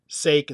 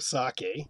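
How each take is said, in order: First: The final E is silent. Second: The final E is pronounced. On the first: The speaker calls it wrong. "Sake instead of" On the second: The speaker calls it right. "you're pronouncing the E, sake"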